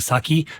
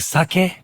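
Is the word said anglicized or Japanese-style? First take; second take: anglicized; Japanese-style. First: The word is said in an anglicized way. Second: The word is said in the Japanese-style way. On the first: The speaker calls it wrong. "You have it wrong if you're saying sake" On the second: The speaker calls it right. "which is a proper pronunciation"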